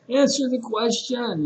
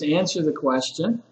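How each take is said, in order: First: Much higher, exasperated demand; acted exasperation at a silent student; frustrated teacher. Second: Said in the usual way. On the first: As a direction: mimic a teacher losing patience. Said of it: "this frustrated teacher". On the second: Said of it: "or just answer the question".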